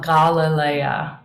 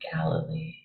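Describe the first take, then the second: First: The name is said in its Greek pronunciation. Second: The name is said in its English pronunciation.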